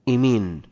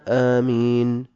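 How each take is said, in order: First: The first vowel is tilted toward an e sound. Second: The first vowel is long and the m is single. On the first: "بالإمالة" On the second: "بالمد والتخفيف"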